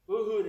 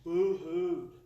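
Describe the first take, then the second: First: "Boo-hooed" louder, falling hard; a loud, emphatic boo-hoo; punched boo-hoo. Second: Boo-hooed stretched out slowly; a slow, heavy boo-hoo; slow drawn-out boo-hoo. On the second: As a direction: let "boo-hooed" sag out long and slow. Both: Real, not acted. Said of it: "that's like an Oklahoma term".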